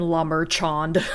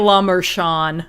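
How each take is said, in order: First: The name is said with an American pronunciation. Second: The name is said with a more French pronunciation. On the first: The speaker calls it wrong. "I could have done a little bit better than" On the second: The speaker calls it right. "I could have said La Merchand. I think that would have been better"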